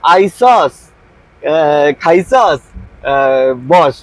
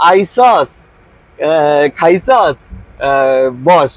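First: It is said in Bangladeshi dialect forms. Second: It is said in Bangladeshi dialect forms.

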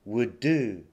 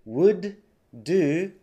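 First: The two d sounds merge into one. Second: Both d sounds are said separately. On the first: The speaker calls it right. "d とd なのでくっつくんですね。" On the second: The speaker calls it wrong. "じゃなくて"

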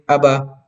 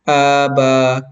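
First: The vowels are said short. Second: The vowels are said long. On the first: The speaker calls it right. "kailangan mabasa natin sa tamang pagbasa" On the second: The speaker calls it wrong. "hindi na tama. Kasi nga, naging mahaba na yung alif at yung ba"

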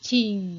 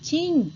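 First: The syllable is said with a low tone. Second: The syllable is said with a falling tone. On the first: "จะมีเสียงเอกนั่นก็คือ" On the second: "แล้วก็เสียงโท"

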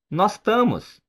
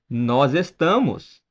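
First: The verb is shortened, dropping its first syllable. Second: The verb is said in full as estamos.

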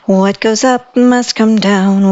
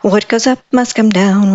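First: The phrase is said at a fairly fast pace. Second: The phrase is said at an even faster pace. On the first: "Let's go pretty fast" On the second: "Can we do it even faster?"

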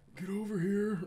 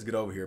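First: It sounds weak, like a polite suggestion. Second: It sounds deep and commanding, with authority.

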